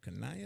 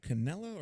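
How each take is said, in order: First: The middle consonant is a Y sound. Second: The middle consonant is an L sound. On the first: "two L's, I know in Spanish should be a Y sound" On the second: "Is it Cosimo Canella"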